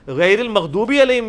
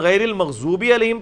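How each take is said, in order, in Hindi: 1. 'magh' के बाद का व्यंजन सादा 'द' है। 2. 'magh' के बाद का व्यंजन 'ज़' की आवाज़ है। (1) "भी गलत है" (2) "पढ़ना हराम है"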